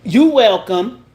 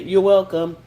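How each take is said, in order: First: It is said in a slick, snide tone. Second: It is said in a plain, neutral tone. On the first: The speaker is calling out the missing thank-you. The speaker calls it wrong. "if you say it in a slick way" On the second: The thanks is acknowledged and everyone moves on. The speaker calls it right. "in that tone that will say, I acknowledge you, let's keep it moving"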